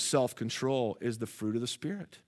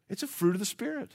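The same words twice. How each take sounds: First: Said in the usual way. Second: "a" lifted higher in a soft correction; soft aside with "a" picked out high; stress on "a". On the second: Real, not acted. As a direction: quietly correct it, pitching up on "a".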